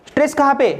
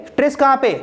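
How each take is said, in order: No difference in how they are said.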